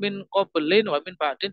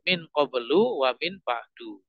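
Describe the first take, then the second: First: Each key word ends with an added n sound. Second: Each key word ends on a bare u vowel. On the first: The speaker calls it wrong. "jadi bukan ... tidak" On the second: The speaker calls it right. "Tapi ... mabni ala dhammi tanpa tanwin"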